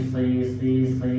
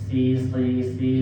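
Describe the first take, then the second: No difference in how they are said.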